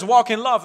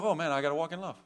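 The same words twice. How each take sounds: First: Said in the usual way. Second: Reluctant reply. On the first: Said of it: "When he says". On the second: Retold or imitated. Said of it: "it's like".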